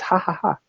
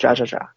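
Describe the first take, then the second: First: Each syllable starts with an h sound. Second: Each syllable starts with a j sound. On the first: The speaker calls it right. "It's ha ha ha" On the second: The speaker calls it wrong. "no, it's not ja ja ja"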